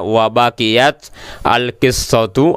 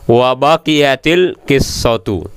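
First: The t of baqiyat has no following vowel. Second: The t of baqiyat takes an i vowel. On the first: "Ini baqiyat tanya sukun" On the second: "bisa dibaca berbaris kasrah menjadi wa baqiyatil qissatu"

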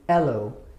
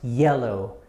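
First: The word starts directly with a vowel. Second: The word starts with a y glide. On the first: "without the J sound, it'll be ello" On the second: "with this one bending the A sound, it becomes yellow"

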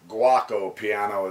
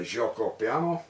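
First: The first word sounds like guacamole. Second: The first word does not sound like guacamole.

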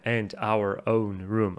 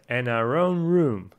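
First: Each word is said separately, with small breaks. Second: The words run together without breaks between them. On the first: "не произносит отдельно" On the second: "а получается"

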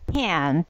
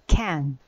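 First: The word is drawn out long and strong. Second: The word is said quick and sharp. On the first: The speaker calls it wrong. "It's not can" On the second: The speaker calls it right. "it's can, right?"

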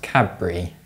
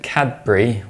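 First: A b sound replaces the d before the b. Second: A clear d sound comes before the b. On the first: The speaker calls it right. "pronounced Cadbury with a B instead" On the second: The speaker calls it wrong. "with a D sound, you're wrong"

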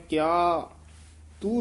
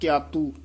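First: There is a short break after the first word. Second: The two words run together without a break. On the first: The speaker calls it right. "ਕਿਆ ਤੇ ਯਮਕ ਲਾ ਦੇਣੀ ਹੈ" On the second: The speaker calls it wrong. "ਇਹ ਵੀ ਇਉਂ ਨਹੀਂ ਬੋਲਣਾ ਕਿਆਤੂ"

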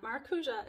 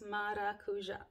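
First: The word has an anglicized pronunciation. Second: The word has a Brazilian Portuguese pronunciation. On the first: The speaker calls it wrong. "you pronounce it not maracuja" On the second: The speaker calls it right. "it's maracuja"

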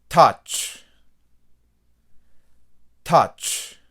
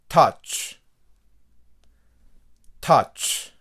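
Both takes have the same delivery.

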